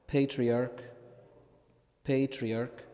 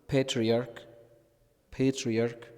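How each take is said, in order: Both takes have the same delivery.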